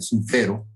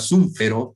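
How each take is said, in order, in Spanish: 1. El acento está en la sílaba fe. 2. El acento no está en la sílaba fe.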